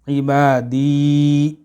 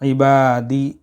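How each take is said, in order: First: The final vowel is drawn out long. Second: The final vowel is clipped short. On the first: The speaker calls it right. "मिलाकर पढ़ने की ज़रूरत है" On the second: The speaker calls it wrong. "इस या को भी हम छोड़ देते हैं, कट कर देते हैं"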